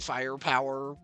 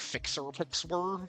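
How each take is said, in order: First: The name is said plainly, without X sounds. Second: The name is said with extra X sounds. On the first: "You probably can just say Firepower" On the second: "I always kind of pronounce this one literally"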